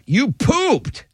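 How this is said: It is said in an upset tone.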